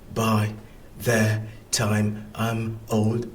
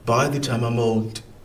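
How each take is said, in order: First: Each word is said separately with small breaks. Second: The words run smoothly together without breaks. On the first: "I don't say" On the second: "I read them quite together"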